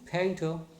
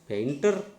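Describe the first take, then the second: First: The stress is on the first syllable. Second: The stress is on the second syllable. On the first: The speaker calls it right. "This should be painter" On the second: The speaker calls it wrong. "We are stressing the second syllable. And we are pronouncing the end R"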